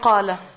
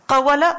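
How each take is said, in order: First: The word has two syllables with no w sound. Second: The word has three syllables with a w sound. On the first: This is the simplified, easier form of the word. "Obviously qala" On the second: This is the original form of the word. "the word qala is actually qawala"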